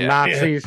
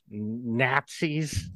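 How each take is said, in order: First: The word is said in the ordinary standard pronunciation. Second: The word is said in the character's imitated pronunciation. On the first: "instead of Nazis" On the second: "the way he pronounced Nazis"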